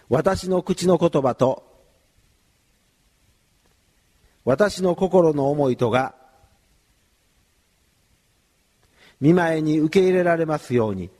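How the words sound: It is said in short chunks with pauses. "少しずつ区切って言いますので"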